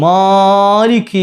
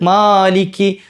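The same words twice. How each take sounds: First: The first vowel is stretched very long. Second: The first vowel is held for two counts. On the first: The speaker calls it wrong. "അത് അത്ര നീട്ടണോ? വേണ്ട" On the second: The speaker calls it right. "അവിടെ രണ്ട് ഹർക്കത്ത് നീട്ടിയാൽ മതി"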